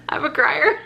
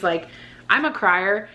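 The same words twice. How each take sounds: First: Much higher, giggling through the words; squeaky laughing repeat. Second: Said in the usual way. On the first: Acted. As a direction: squeal it out mid-laugh as a self-tease. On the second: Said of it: "Like, I do cry".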